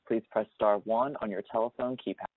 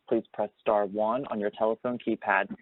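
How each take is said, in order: Both takes have the same delivery.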